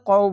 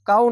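First: The vowel is kept short. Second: The vowel is drawn out long. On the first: The speaker calls it right. "এখানে কোনো টান হবে না, কৌ বলতে হবে" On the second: The speaker calls it wrong. "কাউ না বলে"

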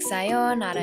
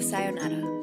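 First: The O vowel is drawn out and emphasized. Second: The O vowel is short and unemphasized. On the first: "you might accentuate your O vowel sound" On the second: "instead of"

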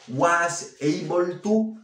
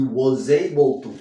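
First: The words are said separately, without a link. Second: The s sounds like z, linked into 'able'. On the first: The speaker calls it wrong. "Fíjate que no digo was able to" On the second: The speaker calls it right. "la S, como la 1 a la A, la pronuncio como una Z"

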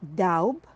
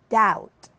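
First: A B sound is pronounced in the word. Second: No B sound is pronounced in the word. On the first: The speaker calls it wrong. "Not daub" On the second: The speaker calls it right. "Here, the B is silent"

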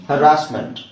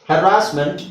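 The two takes are said the same way.

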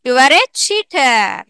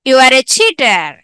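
First: The sentence is read at a slower pace. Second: The sentence is read at a fast pace.

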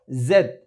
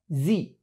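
First: The letter is said the British English way. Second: The letter is said the American English way. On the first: "En inglés británico"

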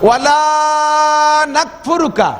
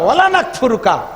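First: The phrase is said slowly and carefully. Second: The phrase is said quickly and run together. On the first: We will never be ungrateful. The speaker calls it right. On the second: From now on we will be disobedient. The speaker calls it wrong.

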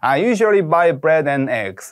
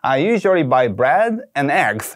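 First: The voice sinks and loses energy toward the end. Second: The voice stays confident all the way through. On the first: The speaker calls it wrong. "흉내를 좀 내보자면 ... 이렇게 훅 가라앉아 버리거든요" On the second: The speaker calls it right. "끝까지 자신감 있는 어조를 유지하면서"

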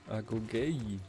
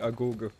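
First: The word ends with an 'eye' sound. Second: The word ends with an 'eh' sound. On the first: The speaker calls it right. "Agogei, habe ich gedacht, spricht man das aus" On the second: The speaker calls it wrong. "nicht Agoge"

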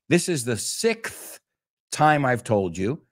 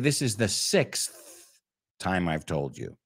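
First: Sixth is said with a k sound, no s. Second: Sixth is said with an s before th. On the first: "So they say" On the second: "And we say"

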